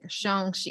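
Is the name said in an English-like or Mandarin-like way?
Mandarin-like. The name is said with Mandarin-like sounds. The speaker pronounces the name properly. The speaker calls it right. "he's like saying it so beautifully"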